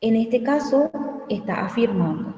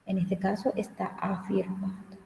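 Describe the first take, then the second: First: Said in the usual way. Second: The same sentence again, whispered without voice. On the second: Shown as a demonstration. Teacher whispers the point again to the class. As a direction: drop to a breath, as if sharing a hint.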